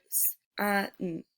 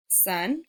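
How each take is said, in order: First: "s-, uh, n-" as three separate sounds, held s first; sounded out. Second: Said in the usual way. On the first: Shown as a demonstration. Teacher showing pupils the letter S in a word, sounded out. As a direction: break sun into "s-, uh, n-", pausing between sounds. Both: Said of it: "like in the word".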